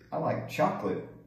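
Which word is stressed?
chocolate. The stress is on chocolate.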